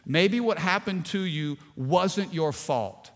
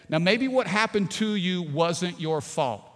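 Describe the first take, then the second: First: Slow, deliberate "Maybe what happened to you wasn't your fault"; slow emphasis. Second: Said in the usual way. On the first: Shown as a demonstration. Pastor repeating it slowly for the hurting listener, deliberate emphasis. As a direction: lean on each word slowly. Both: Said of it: "two things here I want you to see".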